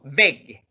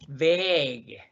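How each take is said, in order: First: "beg" with a brief e, quickly closed; short vowel. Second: "Beg" with the e drawn out long; long vowel. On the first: Teacher showing the double-consonant word, short "beg". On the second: Teacher asking how to pronounce this, long-vowel "Beg". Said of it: "vocal larga cuando hay una". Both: Shown as a demonstration.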